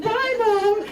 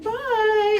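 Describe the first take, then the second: First: Much higher, sing-song "Bye, Mom."; cheery goodbye. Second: Much higher, sing-song "Bye."; cheery goodbye. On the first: Daughter answers her mother's goodbye, high sing-song. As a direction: chirp it back brightly. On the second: Mom cheerfully sends her daughter off, high sing-song. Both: Retold or imitated.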